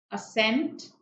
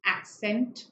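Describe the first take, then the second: First: "assent" with weight on its second syllable. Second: "accent" said AK-sent, with a k before the s; "accent" opening on a clear AK; k-sound "accent". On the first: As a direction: say "assent" as uh-SENT, tune lifting at the end. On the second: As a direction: say "accent" as AK-sent, tune lifting at the end. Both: Shown as a demonstration. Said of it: "All three are different words".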